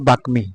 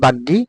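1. এটি সংস্কৃত উচ্চারণে বলা হয়। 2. এটি বাংলা উচ্চারণে বলা হয়। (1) "সংস্কৃত ভাষায় হবে বাকমি" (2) "বাংলা ভাষায় বলা হয় বাগ্যি"

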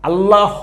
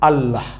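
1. শেষের h পূর্ণ একটি দল হিসেবে উচ্চারিত হয়। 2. শেষের h শুধু একটু হালকা নিঃশ্বাস। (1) "আল্লাহ হ এভাবে বলার দরকার নাই" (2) "সাউন্ডটা হবে আল্লাহ"

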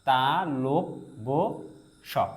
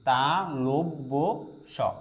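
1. দ্বিতীয় অংশটি 'lo' উচ্চারিত হয়। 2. দ্বিতীয় অংশটি 'lo' উচ্চারিত হয়।

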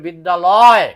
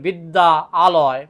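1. শব্দ দুটি মিলে একটি শব্দ হয়ে যায়। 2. শব্দ দুটি আলাদাভাবে উচ্চারিত হয়, স্বরধ্বনি বজায় থাকে। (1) "আপনাকে বলতে হবে বিদ্যালয়" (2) "এখানে এইভাবে বললে হবে না"

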